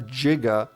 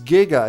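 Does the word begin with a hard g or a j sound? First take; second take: j sound; hard g. First: The word begins with a soft j sound. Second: The word begins with a hard g sound. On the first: The speaker calls it wrong. "it's not giga. Giga is when you jiggle tits" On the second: The speaker calls it right. "It's giga"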